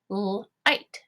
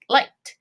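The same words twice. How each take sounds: First: "light" split into l, ight, t; sounded out. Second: Said in the usual way. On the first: Shown as a demonstration. Teacher tapping a syllable for students, "light" in pieces. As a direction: tap out "light" in separate sounds. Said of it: "let's go ahead and tap this one". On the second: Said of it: "and say it".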